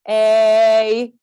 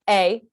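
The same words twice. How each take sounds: First: The vowel is held for a long time. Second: The vowel is cut off quickly. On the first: "So our vowel A can be long" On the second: "It can be short"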